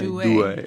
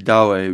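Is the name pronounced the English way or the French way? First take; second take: French; English. First: The name is said with a French pronunciation. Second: The name is said with an English pronunciation. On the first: "I think the French say Douai" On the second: "We say Douai"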